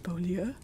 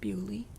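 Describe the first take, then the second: First: The name is said with French sounds. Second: The name is said as English Bewley. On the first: This follows the name's French meaning and spelling. "It's obviously Beaulieu, which means beautiful place" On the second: This is how the locals actually say it. "but they pronounce it Bewley"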